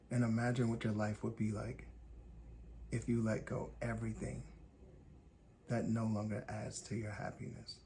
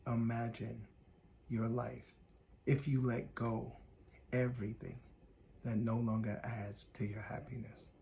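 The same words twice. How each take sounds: First: Said in the usual way. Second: Broken into short weighted phrases with pauses; slow, deliberate repeat. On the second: Shown as a demonstration. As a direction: let each piece land before the next, as if making sure they hear it. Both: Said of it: "You heard me".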